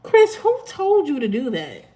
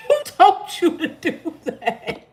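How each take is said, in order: First: Said in the usual way. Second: Higher, laughing as she repeats it. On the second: Real, not acted. Teasing a viewer about his phone call, laughing. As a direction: crack up while asking again. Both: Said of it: "I'm laughing at Chris".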